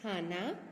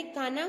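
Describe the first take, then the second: First: खाना with aspirated kh, "khaa-naa"; careful model "khaana" for खाना; correct pronunciation. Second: खाना without the breath, as "kaana"; children's mispronunciation. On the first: Shown as a demonstration. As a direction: say खाना lower, with a breathy kh onset. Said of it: "तो क्या होगा?". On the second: Retold or imitated. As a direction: say खाना with plain unaspirated k. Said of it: "अक्सर बच्चे ये गलती करते हैं".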